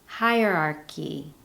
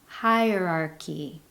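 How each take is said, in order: Both takes have the same delivery.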